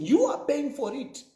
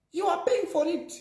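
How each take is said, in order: First: Said in the usual way. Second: "paying" said much higher, rising to a peak before the fall; higher repeat. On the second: Shown as a demonstration. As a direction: hammer home "paying" on a high pitch.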